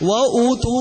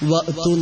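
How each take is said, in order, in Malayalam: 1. 'wa'യ്ക്ക് ശേഷം 'tu'ക്ക് മുമ്പ് ഒരു ദീർഘ 'oo' സ്വരാക്ഷരം വരുന്നു. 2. 'wa'യ്ക്ക് ശേഷം 'tu'ക്ക് മുമ്പ് ഒരു ഗ്ലോട്ടൽ സ്റ്റോപ്പ് വരുന്നു. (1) "വ ഊതു എന്നാണെന്ന് പറഞ്ഞു" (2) "ഞാൻ ഓതിയത് വഅ്തു ബിഹി"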